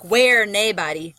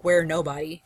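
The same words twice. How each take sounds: First: Slow Scottish "where naebody"; Scottish accent. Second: Said in the usual way. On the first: Shown as a demonstration. Teacher contrasting dialect with everyday speech, slow Scottish accent. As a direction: say "naebody" as NAY-body, Scottish-style, drawn out. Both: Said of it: "if we were saying it".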